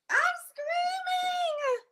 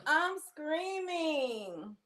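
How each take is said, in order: First: Very high squeal, stretched out slowly; excited screaming. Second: Slow, stretched words, a little raised in pitch; drawn-out mock scream. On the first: Streamer thrilled about New York trip, long screamed squeal. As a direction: drag it out as a piercing happy squeal. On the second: Streamer settling after New York squeal, drawn-out mock scream. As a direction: drag each word out without really screaming. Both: Real, not acted.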